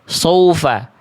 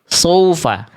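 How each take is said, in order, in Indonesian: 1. Vokal pertama terdengar seperti o, tebal. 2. Vokal pertama terdengar seperti o, tebal.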